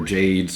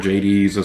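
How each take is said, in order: First: The name has one syllable, like the gemstone. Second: The name has two syllables, rhyming with Hades. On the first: The name refers to a gemstone. "Jades could refer to like uh, Poco Gemma" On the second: The name is modeled on the god of the underworld. "based off uh, the uh, Greek god of the underworld, Hades"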